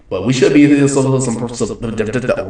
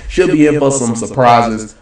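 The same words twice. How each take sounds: First: Trips over the word some, slowing down; stumbling take. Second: Said in the usual way. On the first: Real, not acted. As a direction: get stuck repeating some.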